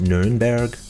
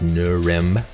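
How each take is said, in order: First: The name is said with German pronunciation. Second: The name is said with American English pronunciation. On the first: This is what locals call the city. "the Germans call it" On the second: This is the name used on maps and American pages. "the American pronunciation"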